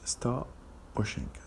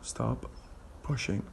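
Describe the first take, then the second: First: The two P sounds merge into one. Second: The P sound is pronounced twice, separately.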